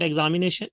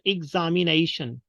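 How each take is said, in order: First: EXAMINATION opening EG-za, run together; wrong pronunciation. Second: EXAMINATION opening IG-za; correct pronunciation. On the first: Teacher shows examination to avoid, EG opening. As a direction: say EXAMINATION with E at the start. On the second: Teacher corrects examination, IG at the start. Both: Shown as a demonstration. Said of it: "not examination".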